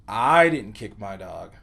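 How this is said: The word I carries the emphasis. Someone else kicked the dog. "put the emphasis on the word I"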